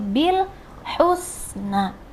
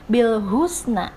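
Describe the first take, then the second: First: The h sound in husna is clearly heard. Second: The h sound in husna is barely heard. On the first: The speaker calls it right. "harus terdengar suara ha" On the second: The speaker calls it wrong. "tidak lagi dibaca bil husna"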